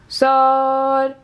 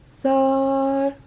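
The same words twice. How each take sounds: First: It is said loudly. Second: It is said softly.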